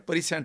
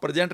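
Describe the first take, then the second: First: It is split into 'pre' and 'sent'. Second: It is said as the usual word 'prezent'. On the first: Moments from the past sent to you. "प्री सेंट है, पीछे का भेजा हुआ" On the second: The moment happening now. "आप प्रेजेंट नहीं जी रहे"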